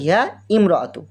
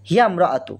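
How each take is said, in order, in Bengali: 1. প্রথম স্বরবর্ণটি আলাদা ধ্বনি হিসেবে উচ্চারণ করা হয়। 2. প্রথম স্বরবর্ণটি বাদ যায় এবং শব্দ দুটি যুক্ত হয়ে যায়। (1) "আসলে এটা ছিল" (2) "এটা আমরা উচ্চারণ করার সময় ধরবো না"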